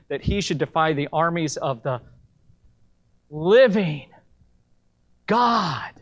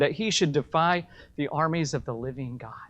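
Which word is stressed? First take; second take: God; none. First: The final word God is strongly emphasized. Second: The sentence is read without special emphasis.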